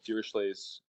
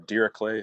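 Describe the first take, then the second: First: The name is said in a non-German way. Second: The name is said in a German way.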